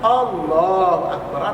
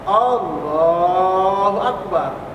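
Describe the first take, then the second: First: The vowel in 'Allah' is held briefly. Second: The vowel in 'Allah' is drawn out longer. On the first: "Dua harkat" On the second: "atau empat"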